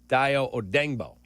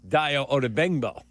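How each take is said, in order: First: The surname is said with three syllables. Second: The surname is said with four syllables. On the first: This is the newer, practiced way of saying the name. "I practiced it in Denver" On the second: This is the earlier way of saying the name. "I originally was"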